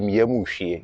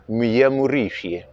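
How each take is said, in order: First: The middle syllable 'ri' is left out. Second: The middle syllable 'ri' is fully pronounced. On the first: "You don't have to put the re part" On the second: "the right way to say it and write it is rishie"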